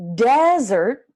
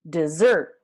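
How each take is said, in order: First: The stress is on the first syllable. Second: The stress is on the second syllable.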